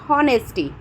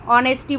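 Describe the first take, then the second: First: हॉनेस्टी with a spoken h at the start; h sounded. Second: ऑनेस्टी starting straight on the vowel, no h; silent h. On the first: Teacher showing students the wrong honesty with h. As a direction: say हॉनेस्टी pronouncing the h, the mistaken way. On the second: Teacher giving students the correct honesty, silent h. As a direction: say ऑनेस्टी with the h dropped. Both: Shown as a demonstration. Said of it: "एच हमेशा silent हो जाता है".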